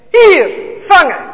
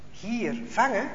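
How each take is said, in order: First: Loud, slow call across the room. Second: Soft, wondering repeat; puzzled echo. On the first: Officer calling out while tossing the Bible, loud. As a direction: throw the call out to someone. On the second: Jos quietly repeating the officer's call, baffled. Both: A narrator's reading.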